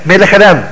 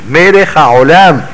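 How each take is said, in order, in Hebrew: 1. ה'ha' שלפני 'olam' נשמטת. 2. ה'ha' שלפני 'olam' נהגית. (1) "מה זה מלך עולם?" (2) "אם לא אמר מלך העולם"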